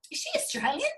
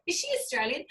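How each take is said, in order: First: "is she Australian?" ending on a high rise; rising question. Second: "Is she Australian?" with the tune falling at the end; falling repeat. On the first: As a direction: ask "is she Australian?" curious, the pitch going up at the end. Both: Retold or imitated. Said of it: "they're going".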